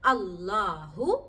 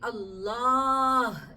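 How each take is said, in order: First: The word ends with a short u vowel. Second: The word ends on a bare h consonant. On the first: The word is read on without stopping. "എന്ന നാമത്തെ ഉച്ചരിക്കാറുള്ളത്" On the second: The reader stops on this word. "വഖഫ് ചെയ്യുകയാണെങ്കിൽ"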